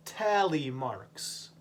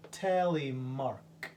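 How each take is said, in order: First: "tally marks" drawn out slowly, each syllable clear; slow careful "tally marks"; slow model word. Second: Slow repeat. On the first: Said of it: "teacher modelling word slowly". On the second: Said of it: "repeated model word". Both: Shown as a demonstration.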